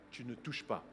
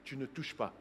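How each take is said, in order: Both takes have the same delivery.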